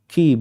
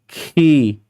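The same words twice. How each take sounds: First: The syllable is said plainly, without extra force. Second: The syllable is said with overdone force and breath. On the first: The speaker calls it right. "Ki biasa" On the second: The speaker calls it wrong. "Bukan bukan gini. ... Berlebihan ya. Bukan seperti itu"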